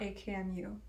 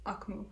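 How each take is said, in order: First: "A K M U" said letter by letter; spelled out. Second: "Akmu" as one word, two syllables, ak-moo. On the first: Host shows the wrong band name, "A K M U" as initials. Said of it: "It's not A K M U". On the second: Host corrects their past self, "Akmu" said as one word. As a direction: say "Akmu" as a name, not as initials. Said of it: "It's Akmu". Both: Shown as a demonstration.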